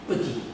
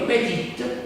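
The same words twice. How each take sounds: First: The first vowel is dropped, almost silent. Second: The first vowel is pronounced in full. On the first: "però si legge petit" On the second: "Si scrive petit"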